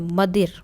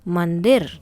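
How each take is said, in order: First: The first syllable has no nasal sound. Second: The first syllable has a nasal sound. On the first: The speaker calls it wrong. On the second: The speaker calls it right.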